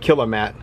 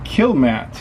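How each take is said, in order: First: The name is said with three syllables. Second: The name is said with two syllables. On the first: The speaker calls it wrong. "I might have pronounced it wrong earlier. I was calling it Killamat" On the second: The speaker calls it right. "It looks like it's called Killmat"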